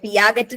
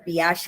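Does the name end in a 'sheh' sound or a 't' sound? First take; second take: t; sheh. First: The name ends with a hard g and t. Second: The name ends with a soft 'sheh' sound. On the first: The speaker calls it wrong. "പിയാഗറ്റ് എന്നൊന്നല്ല കേട്ടോ" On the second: The speaker calls it right. "പിയാഷെ എന്നാണ് പ്രൊനൗൺസ് ചെയ്യുക"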